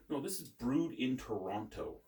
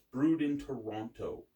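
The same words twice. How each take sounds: First: Said in the usual way. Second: Brewed hit hard and louder, slowed down; stress on brewed. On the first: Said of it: "You're putting a lot of emphasis". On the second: Shown as a demonstration. To a know-it-all viewer, Brewed stressed hard and slow. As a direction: lean heavily on Brewed, slow and punchy. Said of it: "You're putting a lot of emphasis on the syllable there".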